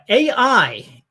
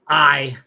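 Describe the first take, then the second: First: The name is said as two syllables. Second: The name is said as one syllable. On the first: The speaker calls it wrong. "or sorry" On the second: The speaker calls it right. "pronounced as I"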